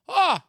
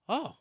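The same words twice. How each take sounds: First: High, loud shocked "oh"; imitated woman's cry. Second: Small, restrained "oh"; startled reaction. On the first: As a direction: yelp it out like the startled woman. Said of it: "like that". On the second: Retold or imitated. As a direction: let out a little stunned oh. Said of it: "And I go".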